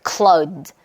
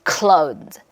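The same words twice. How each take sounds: The two takes are said the same way.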